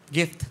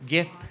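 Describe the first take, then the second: No difference in how they are said.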